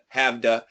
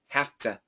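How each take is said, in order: First: A voiced V runs into a D-like sound. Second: A voiceless F runs into a clear T. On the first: The speaker calls it wrong. "this is vibrated, so it should be have to" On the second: The speaker calls it right. "we keep the T and we actually change the V to an F"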